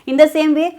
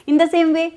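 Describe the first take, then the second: The two takes are said the same way.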